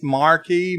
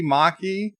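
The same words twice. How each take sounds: First: Marquis with a clear R, "mar-kee"; R sounded. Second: Marquis without the R, "mah-kee"; R dropped. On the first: Host compares two sayings, Marquis with the R in "mar-kee". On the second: Host compares two sayings, Marquis as R-less "mah-kee". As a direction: drop the R from Marquis. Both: Shown as a demonstration. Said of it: "Is there a difference?".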